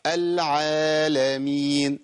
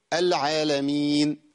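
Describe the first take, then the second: First: العالمين with alif dragged too long; wrong overlong madd. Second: العالمين with alif cut too short; wrong shortened madd. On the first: Teacher demonstrating a common mistake, overlong vowel. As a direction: overdraw the aa in العالمين. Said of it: "ده خطأ". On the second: Teacher demonstrating a too short vowel mistake. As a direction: clip the aa in العالمين. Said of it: "خطأ". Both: Shown as a demonstration.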